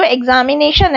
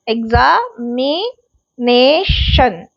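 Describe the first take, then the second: First: Said in the usual way. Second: examination very slowly, split into separate drawn-out syllables; slow sounding-out of examination for a class. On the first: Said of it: "तो इसमें examination". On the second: Shown as a demonstration. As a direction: break examination apart with pauses between syllables. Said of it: "इसमें तीन syllable हैं".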